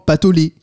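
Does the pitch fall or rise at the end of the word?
falls. The pitch falls at the end of the word. The speaker calls it right. "ça descend à la fin, avec un point"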